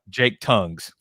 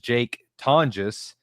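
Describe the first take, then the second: First: The surname sounds like the word tongues. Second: The surname is said in its usual way. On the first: Someone else mispronounced the name this way. The speaker calls it wrong. "who Brad proudly pronounced earlier as" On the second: This is the player's actual name. The speaker calls it right. "his name is Jake Tonjes"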